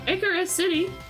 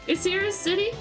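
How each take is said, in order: First: The name sounds like the word Icarus. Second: The name sounds like the word cirrus. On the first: "I think like Icarus" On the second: "it's like cirrus clouds"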